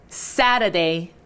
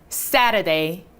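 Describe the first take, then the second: The two takes are said the same way.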